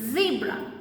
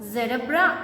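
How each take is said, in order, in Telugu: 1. ఈ పదం 'zee' శబ్దంతో మొదలవుతుంది. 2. ఈ పదం 'zed' శబ్దంతో మొదలవుతుంది. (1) "వి ప్రొనౌన్స్ ఇట్ యాజ్ జీబ్రా" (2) "మనము జెడబ్రా అనం కదా"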